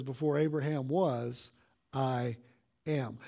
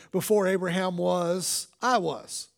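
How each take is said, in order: First: "I" then a pause before a low, quiet "am."; stress on I am. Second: Said in the usual way. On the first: Shown as a demonstration. Pastor contrasts Jesus' real words with a hypothetical, stressing "I am". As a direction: lower and softer, weight on "I am". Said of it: "But that's not what he said". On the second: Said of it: "he would have said".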